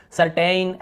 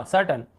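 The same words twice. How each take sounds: First: सर्टेन ending in a long "tayn"; full, drawn "ay" at the end of सर्टेन; wrong pronunciation demo. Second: सर्टेन ending in a short "tun"; reduced last vowel in सर्टेन. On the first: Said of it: "ऐसे नहीं पढ़ना है आपको". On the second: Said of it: "यहाँ पर भी अ". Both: Shown as a demonstration.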